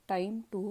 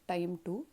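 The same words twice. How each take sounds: No difference in how they are said.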